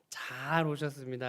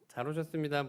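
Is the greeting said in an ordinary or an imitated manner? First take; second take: imitated; ordinary. First: It copies another person's distinctive way of talking. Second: It is said in a plain, ordinary way. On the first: It sounds like a particular church elder. "그 말투가 이봉영 장로님 말투신 것 같아요" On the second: This is the usual way to say it. "보통 잘 오셨습니다라고 할 텐데"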